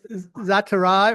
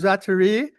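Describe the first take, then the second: First: The name ends with an 'eye' sound. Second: The name ends with an 'ee' sound.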